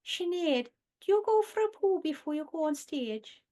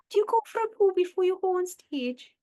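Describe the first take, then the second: First: Higher, sing-song Welsh-sounding lilt; Vic and Bob quote. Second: Higher, louder Welsh-sounding lilt; Vic and Bob quote. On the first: Quoting a Vic and Bob sketch interviewing Sinead, Welsh-ish lilt. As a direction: ask it in a lilting Welsh-ish voice. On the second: Quoting the sketch line again to her co-host, Welsh-ish lilt. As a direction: deliver it in a sing-song Welsh-ish voice. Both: Retold or imitated. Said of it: "it sounds a bit Welsh".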